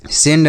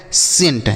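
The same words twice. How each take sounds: First: सेंड with a voiced d at the end; wrong way, with d. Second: सेंट ending on a crisp hard t; right way, with t. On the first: Teacher shows pupils the wrong reading of सेंड. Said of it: "सेंड नहीं". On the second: Teacher shows pupils how सेंट is read. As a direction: say सेंट with a clear t at the end, not d. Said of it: "सेंट ऐसे पढ़ेंगे". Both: Shown as a demonstration.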